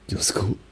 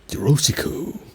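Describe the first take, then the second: First: It is said Japanese-style, clipped and aggressive. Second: It is said with a stereotyped English accent. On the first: "That was like just Japanese, but weirdly aggressive" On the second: "That would be like the like made up one"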